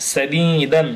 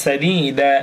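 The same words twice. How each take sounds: First: সাদিদান closing on a clear "n"; সাদিদান with sounded "dan" ending; joined ending with n. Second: Slow সাদিদা with long "ee", no final n; সাদিদা stopped on a vowel; pausal open ending. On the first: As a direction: say the final n of সাদিদান. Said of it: "থামলে সাদিদা". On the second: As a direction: stretch সাদিদা and end on an open "a". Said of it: "থামলে". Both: Shown as a demonstration.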